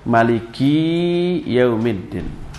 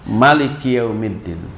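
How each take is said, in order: First: The last syllable ki is held long. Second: All vowels of Maliki are short. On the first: "memendekkan mak dan li-nya tapi memanjangkan ki-nya" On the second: "dengan mak pendek"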